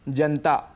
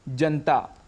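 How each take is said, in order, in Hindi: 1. न के बाद का स्वर छूट जाता है। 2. न के बाद का स्वर छूट जाता है।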